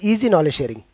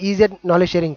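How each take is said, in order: First: The first word is said as the word easy. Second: The first word is spelled out as ee-zed. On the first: The speaker calls it right. "అది ఈజీ knowledge sharing" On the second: The speaker calls it wrong. "చాలా మంది ఈజెడ్ knowledge sharing కాదు"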